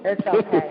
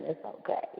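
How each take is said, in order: First: Said in the usual way. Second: "It's okay" whispered with no voice, very soft. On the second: Real, not acted. Keeping quiet on air after eight, a whispered reassurance.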